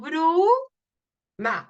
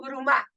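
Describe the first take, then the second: First: The stress is on the first syllable. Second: The stress is on the second syllable. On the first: The speaker calls it right. "decimos bruma, o sea, la U" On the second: The speaker calls it wrong. "Nosotros no decimos bruma"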